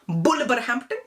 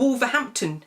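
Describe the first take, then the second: First: It begins with a B sound. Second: It begins with a W sound. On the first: "your parents, will call it Bulverhampton" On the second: "It's called Wolverhampton"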